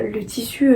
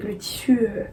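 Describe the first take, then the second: First: Said in the usual way. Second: Whispered to herself while searching. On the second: Real, not acted. Vlogger whispering to herself while hunting for the fabric name. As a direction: whisper it under her breath while searching.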